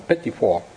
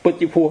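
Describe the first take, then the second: First: It is said with an American pronunciation. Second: It is said with a French pronunciation. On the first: "người ta đọc là Petit Four" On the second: "Petit Four người ta đọc không được"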